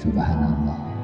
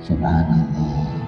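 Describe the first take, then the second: No difference in how they are said.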